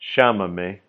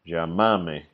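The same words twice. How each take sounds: First: The double L sounds like sh. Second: The double L sounds like y. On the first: "For Argentinians, the double L starting word is a SH or SH sound" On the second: "for most other speakers, it is a Y sound or Y"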